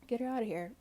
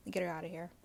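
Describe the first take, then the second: First: Emphatic repeat. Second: Said in the usual way. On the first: Real, not acted. Vlogger dismissing Emily, louder second time. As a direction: punch the repeat of Get her outta here harder.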